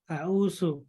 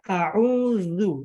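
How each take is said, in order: First: The middle consonant is a plain s sound. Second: The middle consonant is a dz sound. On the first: The speaker calls it wrong. "Kita bilang su" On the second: The speaker calls it right. "harusnya a'udzu"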